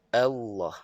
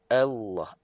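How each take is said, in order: The two takes are said the same way.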